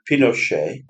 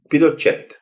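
First: The name is said with a French pronunciation. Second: The name is said with a Spanish pronunciation. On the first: The speaker calls it wrong. "calling the man Pinochet after the French" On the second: The speaker calls it right. "the correct way to pronounce his name is, in fact"

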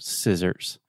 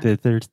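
First: The s sounds come out clear and hissing. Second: The s sounds come out lisped, like th. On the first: The speaker calls it right. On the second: The speaker calls it wrong. "I had a very, very strong lisp"

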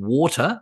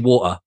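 First: It is said with a clear American T. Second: It is said British style with the T dropped.

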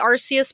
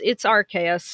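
First: The name is said closer to the Japanese pronunciation. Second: The name is said in the established English way. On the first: This is a personal habit. "I say Arceus because it's a habit of mine and it's closer to the Japanese pronunciation" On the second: This is the official form. "but yeah, it's Arceus"

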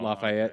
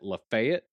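First: The name is said with a standard pronunciation. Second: The name is said with a southern pronunciation. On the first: "instead of Lafayette" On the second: "Depending on the accent of the southern states, though, some states pronounce it Lafayette"

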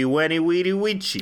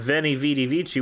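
First: The words begin with a W sound. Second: The words begin with a V sound.

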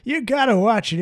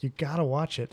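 First: It is said in a put-on old-person voice. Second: It is said in the speaker's normal voice. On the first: The speaker calls it right. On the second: The speaker calls it wrong.

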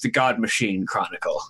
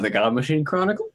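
First: The voice falls at the end. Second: The voice rises at the end.

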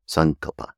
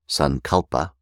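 First: The stress is on the first syllable. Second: The stress is on the second syllable. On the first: The speaker calls it right. "The proper pronunciation is Sankalpa. on the ante-penultimate syllable" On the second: The speaker calls it wrong. "instead of the way that we do in English, which is to say Sankalpa"

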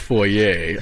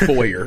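First: The word ends in an 'ay' sound. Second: The word ends in an 'er' sound. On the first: The speaker calls it wrong. "never do I ever add an A on the end of things. Like, I'm not going to the foyer" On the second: The speaker calls it right. "I'm going to the foyer"

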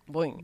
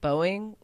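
First: It is said quickly as nearly one syllable. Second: It is said slowly as two syllables. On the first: "they say it faster... more of a one syllable" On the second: "I pronounce it Boeing, like hard O-ing"

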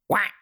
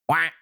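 First: The quack is pitched high. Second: The quack is pitched lower.

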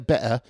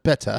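First: The middle T sound is dropped. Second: The middle T sound is clearly pronounced. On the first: "you don't really pronounce T's, you say better" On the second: "instead of better"

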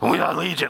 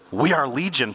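First: It is said in an eerie, many-voiced put-on voice. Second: It is said in his normal voice.

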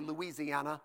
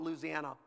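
First: It is said the way Northerners say it. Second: It is said the local Southern way.

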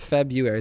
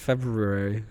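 First: The first R sound is left out. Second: The first R sound is clearly pronounced. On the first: The speaker calls it wrong. "It's not February" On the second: The speaker calls it right. "because there's an R in it"

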